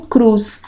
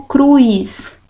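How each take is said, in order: First: Cruz said with a pure u straight into s; cruz without I. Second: Cruz mispronounced cru-is, with an i glide; wrong-way cruz, an i slipped in before the s; cruz with added I. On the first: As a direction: say cruz as "crus", no i glide. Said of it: "e digo cruz". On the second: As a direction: say cruz as "cruis". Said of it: "porque eu não digo cruz". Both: Shown as a demonstration.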